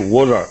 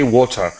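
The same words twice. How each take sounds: First: The middle consonant sounds like a soft d. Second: The middle consonant is a clear t sound. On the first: "They say water" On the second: "the American and the Canadians don't say water"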